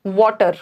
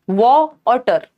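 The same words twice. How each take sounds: First: Said in the usual way. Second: "वॉ और टर" broken into two separate syllables. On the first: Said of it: "वाटर में क्या है?". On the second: Shown as a demonstration. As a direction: say "वॉ और टर" with each syllable set apart. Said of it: "दो syllable हैं". ("वॉ और टर" को दो अलग सिलेबल में तोड़कर)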